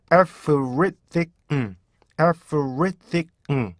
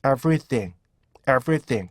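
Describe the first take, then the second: First: Everything very slowly in detached beats, closing on 응; broken-down 에프-릳-띡-응; syllable by syllable. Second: Everything joined into one compact word; connected everything, falling at the end; blended everything. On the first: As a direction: chop Everything into five sounds. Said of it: "이렇게요". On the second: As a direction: say everything smoothly, linking the syllables. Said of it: "그래서 어떻게 돼요". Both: Shown as a demonstration.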